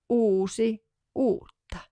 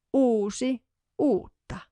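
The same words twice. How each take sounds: The two takes are said the same way.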